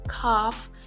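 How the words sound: The vowel is an open back 'ah' sound. "in British English pronounced as calf"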